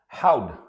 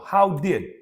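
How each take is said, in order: First: The two words merge into one syllable. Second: Both words are said in full. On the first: "How'd? Same thing"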